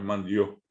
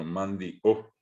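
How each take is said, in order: First: "mandió" run together, "dió" as one gliding syllable; sin pusó. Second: Slow "mandió", broken between i and final ó; pausa glotal. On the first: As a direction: glide straight through "mandió" with no break before ó. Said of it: "no es mandió". («mandió» de corrido, con «dió» en una sílaba) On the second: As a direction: stop the voice inside "mandió", then sound ó separately. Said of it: "separamos la voz". («mandió» separado: mandi, corte, ó) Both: Shown as a demonstration.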